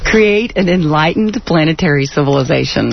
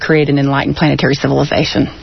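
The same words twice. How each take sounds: First: The phrase is said slowly and deliberately. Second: The phrase is said at a normal, quicker pace.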